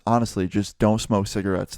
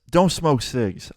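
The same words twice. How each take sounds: First: Said in the usual way. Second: Slow, weighted don't smoke cigs with don't leaned on; slow emphatic moral. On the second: Real, not acted. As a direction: spell out the moral slowly. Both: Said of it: "Moral of the story is".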